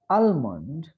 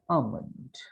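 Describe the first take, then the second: First: Every written letter is sounded out. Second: Not every written letter is sounded out. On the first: The speaker calls it wrong. "If we read these words letter by letter ... incorrect" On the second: The speaker calls it right. "but it is almond"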